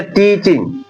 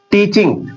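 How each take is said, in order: First: Said in the usual way. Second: "टीचिंग" ending in s, as teachings; final s sounded. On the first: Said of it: "टीचिंग गलत है". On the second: Shown as a demonstration. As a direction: add an s after the ng of "टीचिंग". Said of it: "ये सही है".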